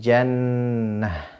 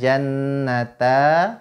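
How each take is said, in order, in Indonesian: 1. Kata ini berakhir dengan bunyi h. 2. Kata ini berakhir dengan vokal a terbuka. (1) "kita ganti dengan huruf ha sukun" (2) "Tidak boleh kita baca jannata"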